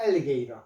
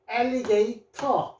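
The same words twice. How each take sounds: First: The consonant before the end is a soft flap. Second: The consonant before the end is a clear t.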